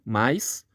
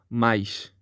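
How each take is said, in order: First: The word ends with a hissing s sound. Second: The word ends with a hushing sh sound. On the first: "aqui um som do S" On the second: "no sotaque do Rio de Janeiro, é esse som aqui, X, é o chiado"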